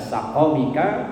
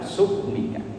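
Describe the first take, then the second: First: It has two 'a' vowels: sa-qa-mika. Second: It has 'u' then no vowel: suq-mika. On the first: "dengan dua fathah" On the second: "dengan dhammah kemudian sukun"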